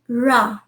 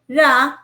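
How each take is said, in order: First: The r sound is soft and gentle. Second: The r sound is hard and strong. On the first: The speaker calls it right. "it is ra, ra, even softer" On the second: The speaker calls it wrong. "it is not ra"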